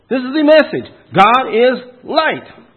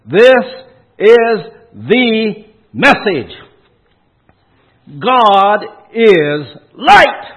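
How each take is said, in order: First: "This is the message" in one high, loud phrase, then "God is LIGHT" slowed; emphatic preaching. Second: "This... is the... message. God... is... LIGHT", loud with long pauses between words; emphatic preaching. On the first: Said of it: "let me preach you this verse". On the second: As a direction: preach "God is light" loud, high, each word drawn out and set apart. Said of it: "give it a little emphasis". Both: Shown as a demonstration.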